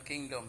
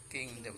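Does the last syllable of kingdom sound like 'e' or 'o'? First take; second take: o; e. First: The last syllable has a full o vowel. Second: The last syllable has a weak e vowel. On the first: The speaker calls it wrong. "bukan kingdom" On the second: The speaker calls it right. "tapi kingdom"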